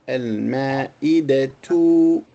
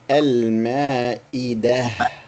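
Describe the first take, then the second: First: The word ends with a t and short vowel. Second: The word ends with a soft h sound. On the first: The speaker continues the sentence after the word. "it becomes al ma'idatu" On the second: The speaker stops after the word. "if you stop completely, you say al ma'idah"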